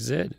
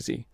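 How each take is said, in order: First: The letter is said as zed. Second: The letter is said as zee. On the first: This is the European way of saying it. "I know in Europe they they don't say Z, they say Z" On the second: This is the American way of saying it. "in the United States, we say Z"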